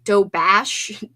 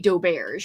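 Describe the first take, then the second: First: The word ends with a 'bash' sound. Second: The word ends with a 'bearzh' sound. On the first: "like Dobash, D O B A S H" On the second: "but I also say Doberge as well"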